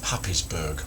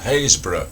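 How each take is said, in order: First: It is pronounced as spelled, 'Happis-burgh'. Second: It is pronounced 'Haysborough', dropping the spelled letters. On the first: The speaker calls it wrong. "you might read it like that" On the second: The speaker calls it right. "I happen to know it's called Haysborough"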